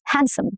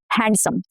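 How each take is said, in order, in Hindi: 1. d ध्वनि मौन है। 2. d ध्वनि उच्चारित होती है। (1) "Handsome, not handsome" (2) "No duh"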